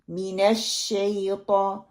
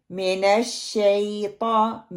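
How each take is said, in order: First: Slow MINASH SHAYTAAN, pure I in मिनश; correct zer. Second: Slow मिनश शैतान with MIN as MEN; majhool mistake. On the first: Teacher giving learners the right मिनश, pure I, slowly. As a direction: keep MI short and clean, draw out शैतान. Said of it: "मीम कसरा मी". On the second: Teacher showing the first mistake, slow MENASH. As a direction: spread the first vowel of मिनश into E. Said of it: "जेर को मजहूल पढ़ना". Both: Shown as a demonstration.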